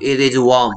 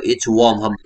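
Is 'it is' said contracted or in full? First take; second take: full; contracted. First: It is said as two full words. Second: It is shortened into one contracted word.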